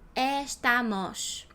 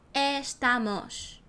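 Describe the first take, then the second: First: Every vowel is pronounced fully open. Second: Every vowel is pronounced fully open.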